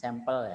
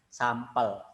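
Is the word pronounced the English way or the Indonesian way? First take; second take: English; Indonesian. First: The word is pronounced the English way. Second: The word is pronounced the Indonesian way. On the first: The speaker calls it wrong. "jangan sampel ya" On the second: The speaker calls it right. "Kalau saya sedang ngomong bahasa Indonesia ya sampel"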